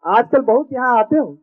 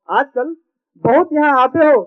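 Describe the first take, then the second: First: Said in the usual way. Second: "बहुत यहाँ आते हो" repeated with a louder punch on हो. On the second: Shown as a demonstration. Poet repeats the camera's line louder so the audience catches it. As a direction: hit the repeat harder for the crowd. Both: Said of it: "repeated louder".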